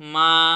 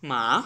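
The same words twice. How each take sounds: First: The pitch rises from middle to high. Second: The pitch falls from high to low. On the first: "আমি আমার ভয়েসের middle level থেকে হাই লেভেলে উঠে গেলাম।" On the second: "ভয়েসের সর্বোচ্চ পর্যায় থেকে আমাদের ওয়ান লেভেলে চলে আসতে হবে।"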